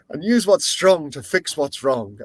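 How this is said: It is said in an imitated Irish accent.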